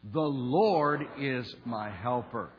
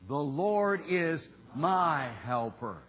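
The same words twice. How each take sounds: First: "The Lord" drawn out with heavy emphasis; stress on THE LORD. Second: "my" stretched out with strong emphasis; slow down and hit the word "my"; stress on MY. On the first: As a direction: lean hard and slow on "The Lord". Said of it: "emphasis on "the Lord". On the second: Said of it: "emphasis on the word "my". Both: Shown as a demonstration.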